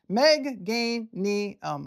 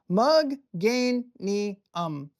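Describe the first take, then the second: First: The first syllable sounds like 'meg'. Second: The first syllable sounds like 'mug'. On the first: The speaker calls it right. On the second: The speaker calls it wrong.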